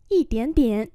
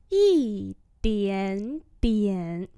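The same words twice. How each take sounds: First: Said in the usual way. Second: Yī dián dián very drawn out; slow demonstration. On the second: Shown as a demonstration. Teacher repeats "Yī dián dián" for learners, very slowly. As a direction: stretch each syllable of Yī dián dián.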